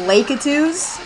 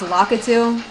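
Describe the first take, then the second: First: The word ends with an s sound. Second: The word ends without an s sound. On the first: The speaker calls it wrong. "When I was younger, I used to call them Lakitus" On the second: The speaker calls it right. "but apparently it's Lakitu"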